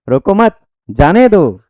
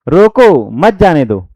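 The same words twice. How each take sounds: First: The pause falls after the word mat. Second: The pause falls after the word roko. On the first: Don't stop them, let them go. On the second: Stop them, don't let them go.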